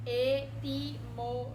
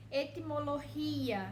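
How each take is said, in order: First: Etimologia spelled out slowly and loudly, each syllable split apart, I and A separated. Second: Said in the usual way. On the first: Shown as a demonstration. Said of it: "Aí separa o I e o A". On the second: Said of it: "Por exemplo".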